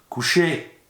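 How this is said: The command is said in a harsh, stern tone.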